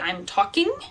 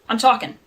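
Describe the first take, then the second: First: The word ends with a full 'ing' sound. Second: The word ends with a dropped 'in' sound. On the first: "We never say ing. We never say I'm talking" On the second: "the accent is just sort of casual"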